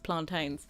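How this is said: The word is said with non-Jamaican pronunciation. Most people elsewhere say it this way. "The rest of the world says plantains"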